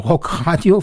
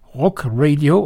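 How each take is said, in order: First: The word is said with German pronunciation. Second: The word is said with English pronunciation.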